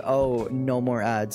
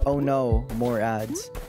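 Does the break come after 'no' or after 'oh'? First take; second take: after oh; after no. First: There is a break after 'oh', before 'no'. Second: There is a break after 'no', before 'more'. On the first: The ads are over. "I assume you're cheering because" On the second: More ads are coming.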